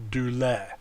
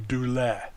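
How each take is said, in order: First: Douleur again as TOO-lair with a falling end; repeated model douleur. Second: Douleur said firmly as TOO-lair, falling; model word douleur. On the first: Teacher repeating Greek word for the class, firm model. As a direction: echo douleur for students to copy. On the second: Teacher presenting Greek example word to class, firm and clear. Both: Shown as a demonstration. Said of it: "We have the word".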